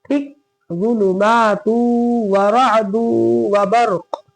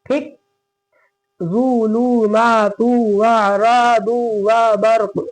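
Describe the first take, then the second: The two takes are said the same way.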